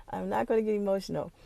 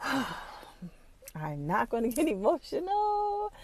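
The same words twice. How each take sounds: First: Said in the usual way. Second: Sigh, then higher, drawn-out, choked-up wail; real struggle to hold back crying; fighting back tears. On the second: Real, not acted. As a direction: stretch it out as emotion wells up.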